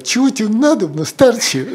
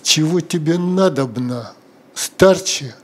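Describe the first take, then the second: First: The tone is warm and friendly. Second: The tone is annoyed and irritated. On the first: The speaker is glad to help. "первый раз она сказала: ... с дорогой душой" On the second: The speaker is fed up with the requests. "А последний раз: ... рыбка рассердилась"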